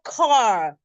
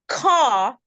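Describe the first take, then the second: First: The R at the end is pronounced. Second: The R at the end is silent. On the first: The speaker calls it wrong. "not car. It is the Americans that love the R" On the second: The speaker calls it right. "It is car"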